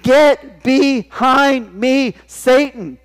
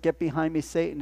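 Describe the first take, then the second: First: Loud, higher, very slow command; stern rebuke. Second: Softer, plain-pitched quote; quiet quote. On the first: Jesus rebuking Peter, loud and very slow. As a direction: drag out the rebuke with force. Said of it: "Jesus turned and he said". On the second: Preacher quietly recalling Jesus' rebuke, soft. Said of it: "what Jesus said". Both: Acted.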